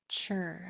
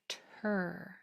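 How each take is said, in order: First: The sound starts with a ch sound. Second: The sound starts with a clear t sound. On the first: The speaker calls it wrong. "I don't want T R to sound like chur" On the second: The speaker calls it right. "I want it to sound like tur"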